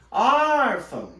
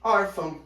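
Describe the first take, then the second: First: ÓRFÃO high and loud with a long drawn-out ÓR; stretched stressed syllable. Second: Said in the usual way. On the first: Shown as a demonstration. Teacher showing the tonic syllable, Órfão stretched on ÓR. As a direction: call Órfão slowly, holding ÓR. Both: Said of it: "Repara que a sílaba tônica é o or".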